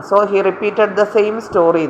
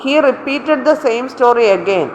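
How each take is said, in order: First: Slow corrected sentence, without again; teacher reading the correction, a little slow; reading the corrected version. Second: Slow dictation of the faulty sentence, again included; reading the wrong version. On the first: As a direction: give the fixed sentence slowly and clearly. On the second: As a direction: read the error version out slowly, word by word. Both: Shown as a demonstration. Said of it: "repeat ചെയ്യുക എന്ന് പറഞ്ഞാൽ again ചെയ്യുക എന്നാ".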